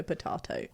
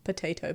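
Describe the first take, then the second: First: "potato" said "puh-TAH-toh", fading almost to a whisper; "potahto" pronunciation. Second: "potato" said "puh-TAY-toh"; "potayto" pronunciation. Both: Shown as a demonstration. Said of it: "tomato, potato".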